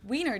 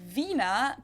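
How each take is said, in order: First: The word begins with a W sound. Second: The word begins with a V sound. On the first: "In English, this can also be used to describe a Dachshund" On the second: "In German, we say Wiener, the German W is pronounced like an English V"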